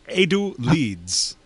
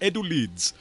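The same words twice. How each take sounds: First: It is said in a put-on Asian accent. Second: It is said in the speaker's normal accent.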